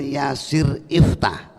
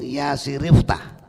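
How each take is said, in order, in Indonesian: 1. Kedua kata itu tetap dipisah. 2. Kedua kata itu disambung tanpa jeda. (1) "bukan yasir iftah" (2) "hamzah wasolnya disimpan, dilempit atau didarji"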